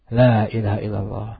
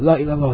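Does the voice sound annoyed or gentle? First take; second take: gentle; annoyed. First: It is said in a gentle, calm tone. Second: It is said in an annoyed, pressing tone. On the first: The dying person is being guided patiently. The speaker calls it right. "bimbing lagi dengan tadi hikmah" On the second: The dying person is being pressured and may become angry. The speaker calls it wrong. "enggak juga kita kesalnya la ilallah"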